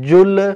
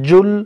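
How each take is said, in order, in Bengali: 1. শেষের ব্যঞ্জনে প্রতিধ্বনিযুক্ত ঝাঁকুনি আছে। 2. শেষের ব্যঞ্জন ঝাঁকুনি ছাড়াই সাধারণভাবে শেষ হয়। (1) "এখানে জুল যদি বলতে যাই হবে না" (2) "জুল বলতে হবে"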